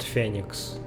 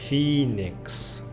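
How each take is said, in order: First: It is said with the Russian vowel sounds. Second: It is said with the English vowel sounds. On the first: The speaker calls it wrong. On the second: The speaker calls it right.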